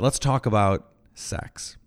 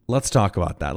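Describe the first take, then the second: First: Let's talk about sex said slow and teasing; slow playful song reference. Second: Said in the usual way. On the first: Shown as a demonstration.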